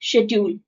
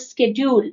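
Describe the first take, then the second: First: The word begins with an 'sh' sound. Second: The word begins with an 'sk' sound. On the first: This is the British pronunciation. "British में it is called" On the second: This is the American pronunciation. "American में it is called"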